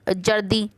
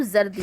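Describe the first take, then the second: First: जर्दी with a plain j sound, as jardi; without nukta. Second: जर्दी with a z sound, as zardi; with nukta. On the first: Teacher showing kids the word without nukta, plain j. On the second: Teacher showing kids the nukta sound, z instead of j. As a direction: say जर्दी with a buzzing z. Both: Shown as a demonstration. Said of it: "नुक्ता लगने से वर्णों के उच्चारण बदल जाते हैं".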